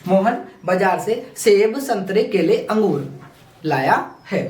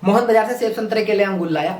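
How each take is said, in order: First: Short pauses separate each item in the list. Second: The list is rushed with no pauses.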